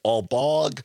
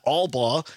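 First: "Albog" ending in a hard g, like bog; common mispronunciation. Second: "Albaugh" as ALL-baw, no g; correct surname pronunciation. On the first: Guest shows how people misread his name, "Albog" with hard g. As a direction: close "Albog" on a sounded g. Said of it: "but I get Albog". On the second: Guest gives his difficult name correctly, "Albaugh" as ALL-baw. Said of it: "I have a, a difficult". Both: Shown as a demonstration.

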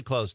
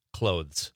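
First: "clothes" said like "close", no TH; casual "clothes" rhyming with "nose"; TH dropped in clothes. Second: Self-correcting "Clothes" with a clear TH before the Z; careful "Clothes", TH fully voiced; TH sounded in clothes. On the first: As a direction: let the TH fall out of "clothes". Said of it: "It's not clothes". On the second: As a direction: put the TH back into "Clothes". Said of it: "I use the T H in that word". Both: Shown as a demonstration.

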